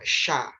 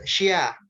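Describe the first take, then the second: First: The sh sound goes straight into the vowel. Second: A y-glide follows the sh sound. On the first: The speaker calls it right. "Langsung buka mulutnya" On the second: The speaker calls it wrong. "bukan syia. Nggak pakai y"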